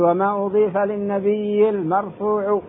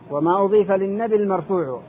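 First: The ya in nabi is doubled and held. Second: The ya in nabi is short and light. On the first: The speaker calls it wrong. "شدد هذا خطأ" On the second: The speaker calls it right. "بتخفيف الياء وسكونها الوزن"

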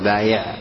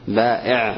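First: The middle consonant is a y sound. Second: The middle consonant is a glottal stop. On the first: The speaker calls it wrong. "ولا تقل بايع" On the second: The speaker calls it right. "بائع بالهمز كله"

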